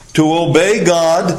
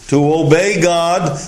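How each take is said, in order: Both takes have the same delivery.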